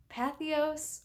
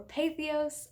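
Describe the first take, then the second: First: Patheos said PATH-ee-ohs; first syllable of Patheos rhymes with "math"; Patheos with short A. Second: Patheos said PAY-thee-ohs; first syllable of Patheos rhymes with "day"; Patheos with long A. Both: Shown as a demonstration. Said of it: "don't know how to pronounce that name".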